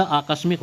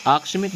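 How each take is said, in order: First: आकस्मिक slowly, with a clear middle "ka", "aa-kas-mik"; correct pronunciation. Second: आकस्मिक with the middle vowel dropped, "aksmik"; wrong pronunciation. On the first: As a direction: sound every syllable of आकस्मिक, "aakasmik". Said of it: "होता है". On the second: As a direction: run आकस्मिक together as "aak-smik". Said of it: "नहीं होता". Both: Shown as a demonstration.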